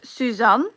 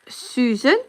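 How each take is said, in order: First: The name is pronounced the Dutch way. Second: The name is pronounced the English way. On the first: "in Dutch Suzanne" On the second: "you can say uh, Susan in English"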